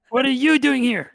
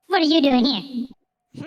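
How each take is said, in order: First: It is said in a normal voice. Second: It is said in a put-on creature voice.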